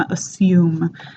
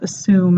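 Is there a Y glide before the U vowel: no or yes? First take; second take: yes; no. First: A Y glide comes before the vowel. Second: No Y glide comes before the vowel. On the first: The speaker calls it right. "this J sound here" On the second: The speaker calls it wrong. "instead of assume"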